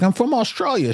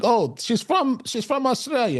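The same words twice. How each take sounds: First: Put-on a clumsy, high-pitched stab at an Australian accent; badly done Australian accent, half laughing at yourself; Australian accent attempt. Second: A much higher, hammed-up Australian accent that drifts toward Italian; self-mocking bad Australian accent, pitched way up; botched Australian accent. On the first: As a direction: try her Australian accent and miss it a bit. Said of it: "don't let me try to do these accents". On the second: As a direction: overdo the Australian accent until it sounds Italian. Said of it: "I'll be quoting Italian".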